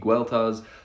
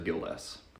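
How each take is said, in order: First: The name is said with its old Brittonic sounds. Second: The name is said with modern English sounds. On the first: This is how the name sounded in the monk's native language. "the common Brittonic pronunciation would be Gueltas" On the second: This is how the name is said today. "the modern pronunciation is like Gildas"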